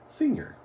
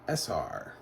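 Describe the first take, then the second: First: It is spoken as one full two-syllable word. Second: It is spoken as two separate letter names. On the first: The speaker calls it right. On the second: The speaker calls it wrong.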